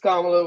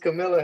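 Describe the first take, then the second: First: The name is said as Kamala. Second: The name is said as Camilla. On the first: The speaker calls it right. "but we no, it's Kamala" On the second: The speaker calls it wrong. "according to Greta's dad, his name is her name is Camilla Harris"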